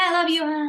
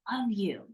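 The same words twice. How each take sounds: First: It is said offhandedly, without feeling. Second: It is said warmly, with feeling. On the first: It is a habitual cliche said by default. The speaker calls it wrong. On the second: The speaker truly connects with the person. The speaker calls it right. "grab them, look them in the face, or something that feels good to you"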